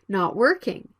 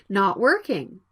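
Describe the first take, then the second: Both takes have the same delivery.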